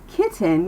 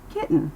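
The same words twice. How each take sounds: First: "kitten" with a full T, like "kit-ten"; overpronounced T. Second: "kitten" with the T caught in the throat, like "kit'n"; held-back T. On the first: Teacher shows what to avoid, hard T in "kitten". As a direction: sound out the T in "kitten". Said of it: "Instead of saying". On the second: Teacher models American speech, unreleased T in "kitten". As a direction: swallow the T in "kitten" straight into the N. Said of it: "it still keeps its voice down". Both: Shown as a demonstration.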